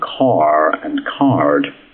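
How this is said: The R after each vowel is pronounced. "They pronounce the R in"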